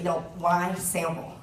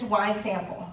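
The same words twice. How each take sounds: First: WHY SAMPLE drawn out slowly; slow down and press the question "why sample"; "why sample" as a slow, earnest question; serious emphasis. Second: Said in the usual way. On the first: Real, not acted.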